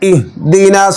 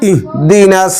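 First: The h is pronounced softly and normally. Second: The same.

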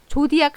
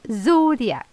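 First: It begins with a Korean-style j sound. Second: It begins with a buzzing, vibrating z sound. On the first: The speaker calls it wrong. "조디악 하시면 안 되고요" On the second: The speaker calls it right. "Z 해서 발음 떨리는 발음 해서 Zodiac"

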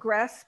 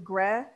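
First: It is said with a southern French pronunciation. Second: It is said with a standard French pronunciation. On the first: "because it's in the south" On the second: "as opposed to"

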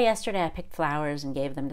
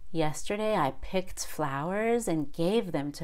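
First: The T in 'picked' is held, and the phrase is quick. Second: The T in 'picked' is released with air, and the phrase is slower. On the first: "if I do the held T, I'm probably speaking quite a bit faster. ... That's pretty fast" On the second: "Or more slowly, ... That's a little slower"

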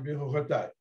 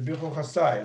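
First: It is said in Sephardi style, with a t sound. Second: It is said in Ashkenazi style, with an s sound. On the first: "сафарди" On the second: "ашкеназы говорят"

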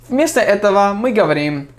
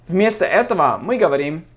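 No difference in how they are said.

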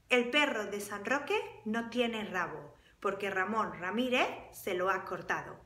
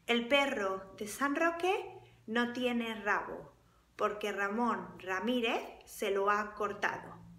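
First: It is said at a faster pace. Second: It is said at a slower pace.

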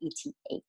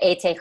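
First: The letters are spoken with English letter names. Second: The letters are spoken with German letter names.

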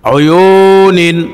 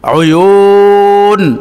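First: The word ends with a full 'nin' syllable. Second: The word ends with a bare 'n' sound. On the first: The reading continues without stopping. "নুন দুই জের নিন" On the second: The reader stops at the pause mark. "এখানে ওয়াকফ হলে অয়ু নিন হবে না, নুন সাকিন হয়ে যাবে"

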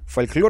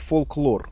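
First: The L in the middle is soft. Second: The L in the middle is hard. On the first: The speaker calls it wrong. "это как-то с этого, смягченно" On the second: The speaker calls it right. "логично, что звучит фолклор"

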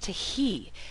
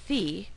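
First: The h is sounded separately after the t. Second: The t and h merge into one sound. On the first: The speaker calls it right. "this is tahi" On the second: The speaker calls it wrong. "this is not thi"

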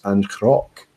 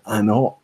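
First: The word has a k sound after the n. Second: The word has no k sound after the n. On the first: This is the Gaelic way of saying it. "the right way to pronounce it was Ancroc" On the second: This is how the brand itself says it. "I was pronouncing it Anok"

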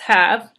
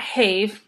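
First: The vowel is short, as in cat. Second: The vowel is long, rhyming with gave. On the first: The speaker calls it right. "it's have" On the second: The speaker calls it wrong. "So it's not have"

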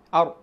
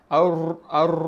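First: The r has only a light, brief trill. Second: The r is rolled long with many trills. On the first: The speaker calls it right. "sebenarnya tak ada getar banyak sangat" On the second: The speaker calls it wrong. "tak boleh"

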